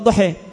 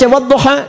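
First: The final vowel leans toward an 'e' sound. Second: The final vowel is an open 'a' sound. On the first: This is the reading of a tribe that uses imalah. "dia baca wadduha; enggak bisa A, bisanya E, imalah" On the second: This is the ordinary reading. "Antum baca wadduha"

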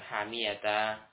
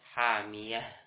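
First: The word ends with a -ta sound. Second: The word ends with an h sound. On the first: This is a wrong way to stop on it. The speaker calls it wrong. "ketika waqaf bukan hamiyata" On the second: This is the correct form when stopping. The speaker calls it right. "tapi hamiyah"

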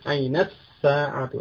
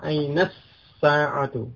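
No difference in how they are said.

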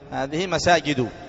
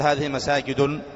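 First: The last word ends in a vowel without n. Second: The last word ends with an added n sound. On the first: The speaker calls it right. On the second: The speaker calls it wrong. "ما تقول هذه مساجد"

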